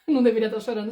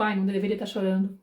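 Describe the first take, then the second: First: Laughing, quick incredulous echo. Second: Said in the usual way. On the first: Shown as a demonstration. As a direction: repeat it in amused disbelief, a bit faster. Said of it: "Isso não faz sentido". (repetindo com riso incrédulo) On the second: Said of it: "do tipo".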